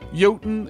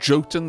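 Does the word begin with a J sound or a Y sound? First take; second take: Y sound; J sound. First: The word begins with a Y sound. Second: The word begins with a J sound. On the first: The speaker calls it right. "the J is a Y instead" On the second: The speaker calls it wrong. "it's not Jotun"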